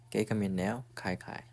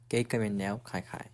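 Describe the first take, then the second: No difference in how they are said.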